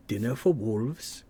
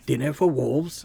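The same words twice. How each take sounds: First: A hint of British accent on the end; lightly British slow ending; slight British accent. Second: Said in the usual way. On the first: Redoing a Conan line, a hint of British accent. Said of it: "I put a British accent at the end".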